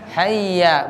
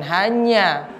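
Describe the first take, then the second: First: The middle consonant is a doubled y sound. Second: The middle consonant is an n-y sound. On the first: The speaker calls it right. "Yang benar apa? Hayya" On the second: The speaker calls it wrong. "bukan hanya"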